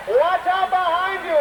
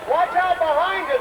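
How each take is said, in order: First: High, urgent cry, held a bit longer; urgent warning. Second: High, urgent cry with a falling end; urgent warning. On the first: Announcer warns the performers again, high and urgent. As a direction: shout it out to save them. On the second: Announcer warns the performers behind them, high and urgent. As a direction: warn them before it's too late. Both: Acted.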